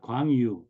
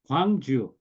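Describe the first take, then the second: First: The second syllable begins with a Y sound. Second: The second syllable begins with a J sound. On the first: The speaker calls it wrong. "not Gwangyu" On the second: The speaker calls it right. "this is also Gwangju"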